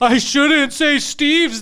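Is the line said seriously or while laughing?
laughing. It is said while laughing.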